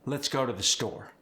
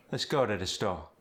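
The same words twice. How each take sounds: First: Said in the usual way. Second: Musical Cajun lilt; Cajun sing-song. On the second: Shown as a demonstration. Coach showing Cajun melody on a sentence. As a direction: let the line sing a little. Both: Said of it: "a little sing-song".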